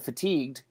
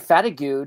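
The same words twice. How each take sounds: First: The word is said in the standard way. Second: The word is said in a funny, distorted way. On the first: "instead of fatigued" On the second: "I always did say fatigued ... because it's just funnier"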